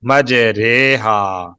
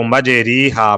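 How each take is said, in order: First: "مجرے ہا" very slowly as maj-RAY-haa; long drawn ay after the r in "مجرے ہا"; correct majhool reading. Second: "مجری ہا" as maj-REE-haa; long ee after the r in "مجری ہا"; wrong "ri" reading. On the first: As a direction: model "مجرے ہا" with ray, not ree. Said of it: "اس کو مجری ہا پڑھنا غلط ہے". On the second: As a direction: demonstrate the mistake: "مجری ہا" with ee. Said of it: "پڑھنا غلط ہے". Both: Shown as a demonstration.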